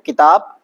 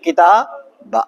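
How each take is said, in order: First: The word is said in its form for stopping. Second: The word is said in its form for continuing. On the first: The reader pauses after this word. "जब रुकना है तो किताब" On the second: The reader carries on without pausing. "नहीं रुकना है तो किताब"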